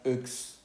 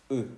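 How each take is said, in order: First: "X" said wrongly as euks, ending in ks; final X sounded. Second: "E" as a bare rounded eu, no ks; silent final X. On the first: Teacher shows what not to say, final ks sounded. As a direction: add an audible ks to the "X" word. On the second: Teacher corrects the wrong take, X left silent. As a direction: leave "E" open, without any final consonant. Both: Shown as a demonstration. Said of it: "no se va a pronunciar X".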